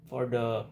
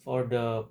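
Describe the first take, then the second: No difference in how they are said.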